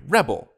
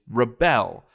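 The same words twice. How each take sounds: First: The stress is on the first syllable. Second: The stress is on the second syllable. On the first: It names a person who resists. "When it's a person, they're a rebel" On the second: It names the act of resisting. "the thing that a rebel does is rebel"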